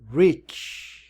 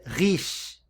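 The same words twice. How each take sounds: First: It begins with a rounded, W-like R. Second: It begins with a throaty, Portuguese-style R. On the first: The speaker calls it right. "a gente pronuncia rich" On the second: The speaker calls it wrong. "aqui a gente não pronuncia rich"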